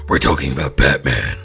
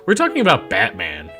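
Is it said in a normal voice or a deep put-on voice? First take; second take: deep put-on; normal. First: It is said in a deep Batman voice. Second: It is said in a normal voice.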